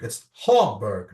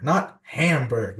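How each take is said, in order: First: "Hamburg" said the German way, slow and lower, HAM-burg with an open a; German pronunciation. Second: "Hamburg" said the American way, like the food, slow and low; mock the anglicised "Hamburg" as the wrong form; American pronunciation. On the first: Retold or imitated. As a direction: slowly model the native German "Hamburg". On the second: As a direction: Till showing how Americans mispronounce "Hamburg". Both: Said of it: "it's pronounced Hamburg".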